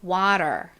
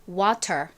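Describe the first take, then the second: First: The t is a quick tap like l. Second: The t is a crisp, clearly released t. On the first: "버터를 조금 발라서 미국스럽게" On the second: "저희 정석의 정직한 발음"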